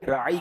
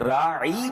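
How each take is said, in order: First: The vowel is said short and plain. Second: The vowel is drawn out with a glide. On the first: Please show us consideration. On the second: It means shepherd.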